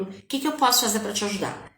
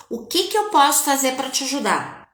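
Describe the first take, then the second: First: Softer, a little quicker, tender; gentle soft offer. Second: Said in the usual way. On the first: Shown as a demonstration. Mother to her crying daughter, soft and gentle. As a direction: ask gently, as to a crying child. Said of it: "quando ela tá chorando". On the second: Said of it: "pergunta pra pessoa".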